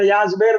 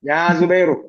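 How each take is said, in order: First: The name ends on a consonant without a vowel. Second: The name ends with an audible final u vowel. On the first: It is the casual spoken form. "നമ്മുടെ സ്പോക്കൺ ലാംഗ്വേജിലേക്ക്" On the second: It follows the formal grammatical ending. "അവസാനം നമ്മ കേൾക്കണ്ടേ?"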